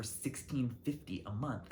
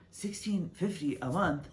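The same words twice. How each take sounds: First: Said in the usual way. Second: Higher-pitched, disbelieving repeat of the price; incredulous echo. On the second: Retold or imitated. Reacting to the coworker's rent find, incredulous. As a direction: echo it back in mock shock.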